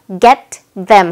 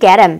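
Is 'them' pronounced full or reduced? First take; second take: full; reduced. First: Said slowly, with 'them' pronounced in full. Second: Said quickly, with 'them' reduced to 'em'. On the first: "좀 천천히 끊어서 get them 하고 발음을 하고 있는데" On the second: "실제로 좀 빠르게 발음하면은"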